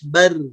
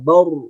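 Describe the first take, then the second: First: The syllable is light and thin. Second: The syllable is heavy and thick. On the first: "kalau datar dia bakal tipis" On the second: "suaranya akan tebal"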